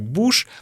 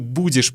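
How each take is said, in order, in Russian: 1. Слово сокращено до одного короткого слога. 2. Слово произносится полностью, оба слога чёткие. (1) "произносим как буш" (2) "Мы будешь произносим как буш"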